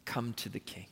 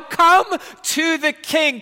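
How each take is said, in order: First: Low, very soft, gentle invitation; almost breathe it to one listener. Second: High, loud, slow call; loud plea. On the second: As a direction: call them forward with all your strength. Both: Acted.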